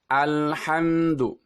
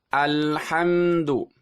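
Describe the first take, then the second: No difference in how they are said.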